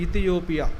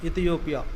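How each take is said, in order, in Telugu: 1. ఈ పదం 'i' అచ్చుతో మొదలవుతుంది. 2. ఈ పదం 'i' అచ్చుతో మొదలవుతుంది.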